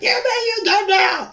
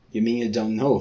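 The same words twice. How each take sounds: First: Very high squeal of surprise; shrill high shout. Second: Said in the usual way. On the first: Pretend. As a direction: squeak it out in shock. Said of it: "Shouted her". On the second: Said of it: "shouted Rinda".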